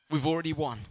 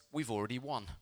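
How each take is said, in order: First: "We've already won" lifted higher and firmer; emphatic repeat. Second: Said in the usual way. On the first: Real, not acted. Preacher proclaiming victory to church, "We've already won" said emphatically. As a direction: drive home "We've already won" with a raised pitch. Repeats banner's words to drive home.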